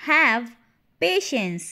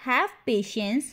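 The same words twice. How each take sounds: First: Loud "Have", a pause, then "patience"; word by word. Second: Said in the usual way. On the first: Shown as a demonstration. Teacher repeats "Have patience" for learners, word by word. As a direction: punch "Have" and set "patience" apart.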